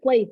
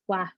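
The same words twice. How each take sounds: First: The vowel differs from the one in 'flat'. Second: The vowel matches the one in 'flat'. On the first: The speaker calls it wrong. "there's no I in there" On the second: The speaker calls it right. "It's flat with an H in the end"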